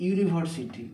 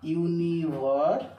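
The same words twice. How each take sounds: First: Said in the usual way. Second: ইউনিভার্সিটি said slowly, starting with a clear ইউ sound; slow demo pronunciation. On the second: Shown as a demonstration. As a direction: stretch out ইউনিভার্সিটি so the opening ইউ is heard. (ধীরে ধীরে ইউনিভার্সিটি উচ্চারণ, শুরুতে স্পষ্ট ইউ) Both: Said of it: "এই ইউনিভার্সিটির উচ্চারণটা উর মতো হচ্ছে".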